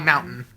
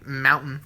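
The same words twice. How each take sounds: First: The middle T sound is dropped. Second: The middle T sound is clearly pronounced. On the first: "we drop our T's. We say mountain" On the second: "We don't say mountain"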